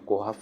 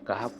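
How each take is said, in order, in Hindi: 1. पहला स्वर गोल o है। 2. पहला स्वर खुला a है। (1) "कोहफ या केहफ वगैरह नहीं पढ़ते हैं" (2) "सूरा कहफ पढ़ते हैं"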